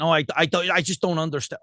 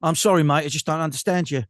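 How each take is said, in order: First: Mock American listener, lightly voiced; American accent. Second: Mock English apology, lightly voiced; English accent. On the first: Baffled listener complaining about the accent, mock American accent. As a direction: imitate an American failing to understand. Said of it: "it's not an American accent". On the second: Baffled listener apologising to mate, mock English accent. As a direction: imitate an Englishman politely not understanding. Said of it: "the English are really good at that".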